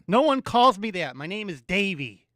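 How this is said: It is said in an angry tone.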